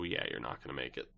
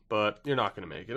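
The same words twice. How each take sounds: First: Lower, softer and quick throwaway; muttered aside. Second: Said in the usual way. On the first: Real, not acted. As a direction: mutter it fast under your breath. Dismissing Chicago's playoff chances.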